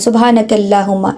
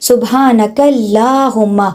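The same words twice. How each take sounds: First: It is rushed, with the long vowel clipped short. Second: It is unhurried, with the long vowel fully drawn out. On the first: The speaker calls it wrong. "जल्दी से पढ़ जाते हैं ... ऐसे नहीं करना" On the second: The speaker calls it right. "उस खड़े ज़बर का हक अदा होगा तो अल्लाह का नाम होगा"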